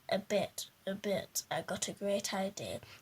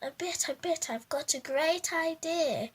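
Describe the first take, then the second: First: It is said in a plain, flat voice. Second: It is said in Winchy's lively character voice.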